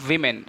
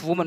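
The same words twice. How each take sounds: First: Women with "wi" in the first syllable; plural pronunciation. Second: Woman with "wu" in the first syllable; singular pronunciation. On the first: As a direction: say women as "WIM-in". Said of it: "we pronounce". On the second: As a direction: say woman as "WU-mun". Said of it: "We pro-, not pronounce". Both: Shown as a demonstration.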